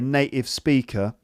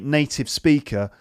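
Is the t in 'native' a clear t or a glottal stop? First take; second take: glottal stop; clear t. First: The t sound is replaced by a glottal stop. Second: The t sound is clearly pronounced. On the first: This is how a friend from Kent says it. "glottal stops" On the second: This is how the presenter says it. "pronouncing T sounds. So I'd say"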